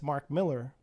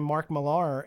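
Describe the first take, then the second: First: The surname ends with an 'er' sound. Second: The surname ends with an 'ar' sound. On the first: The speaker calls it right. "and it's Mark Miller" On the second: The speaker calls it wrong. "This whole time I've been saying Mark Millar"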